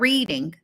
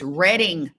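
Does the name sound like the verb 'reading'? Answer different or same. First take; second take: same; different. First: It sounds the same as the verb 'reading'. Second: It sounds different from the verb 'reading'. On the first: The speaker calls it wrong. "It's not Reading" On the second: The speaker calls it right. "It's Reading, Pennsylvania"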